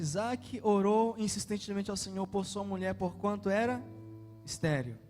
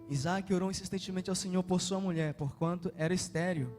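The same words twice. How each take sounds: First: It is read slowly, with pauses. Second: It is read at a normal pace.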